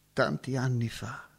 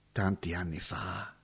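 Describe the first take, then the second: First: Said in the usual way. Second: Soft, low, far-away murmur; fading memory. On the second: Acted. Roberto musing on the past, dropping to a hush. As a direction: let it die away into the past.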